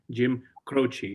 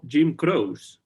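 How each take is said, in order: First: The surname is pronounced in the American way. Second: The surname is pronounced in a non-American way. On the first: This is how many people in the United States say it. "mucha gente eh, pronuncia su apellido como ... la forma estadounidense" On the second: This is how the speaker always knew the name. "un hombre que yo siempre mmm, conocí como"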